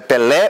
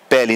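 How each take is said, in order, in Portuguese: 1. A tônica é a última sílaba. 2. A tônica é a primeira sílaba.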